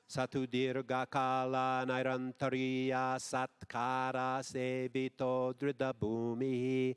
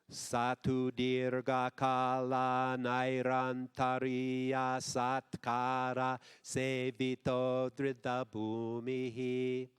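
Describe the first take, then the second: First: It is said at a faster pace. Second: It is said at a slower pace.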